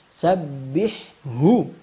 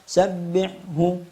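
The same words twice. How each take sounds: First: The breathy h airflow is clearly heard. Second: The breathy h airflow is missing. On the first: The speaker calls it right. "Yang tepat, pastikan hamznya keluar" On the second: The speaker calls it wrong. "Yang tidak tepat"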